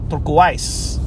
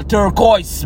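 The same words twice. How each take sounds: First: "Turquoise" said as "turk-wise"; odd pronunciation of turquoise. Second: "turquoise" said as "tur-koys"; turquoise with oy sound. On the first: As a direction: rhyme the end of "Turquoise" with "wise". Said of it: "That's how you say it?". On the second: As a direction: rhyme the end of "turquoise" with "voice". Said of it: "I call turquoise". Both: Shown as a demonstration.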